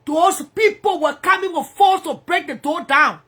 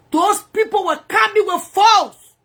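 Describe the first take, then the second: First: Said in the usual way. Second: Higher, louder and slower, leaning on coming; each word pressed out to stress how violent it was; slow emphatic repeat. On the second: Real, not acted. To viewers about the police raid, slow and emphatic. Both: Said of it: "repeats phrase with more force".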